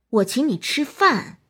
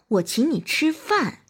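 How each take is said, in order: First: The word 饭 carries the stress. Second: The word 饭 carries the stress.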